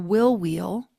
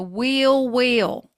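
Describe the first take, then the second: First: It is said in a neutral accent. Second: It is said in a Southern US accent.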